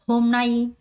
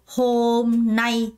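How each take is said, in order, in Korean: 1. 두 번째 음절에는 강세가 있어요. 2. 두 번째 음절에는 강세가 없어요. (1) "nay의 강세가 들어가요" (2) "아무도 hôm nay 이렇게 발음하는 사람 없어요"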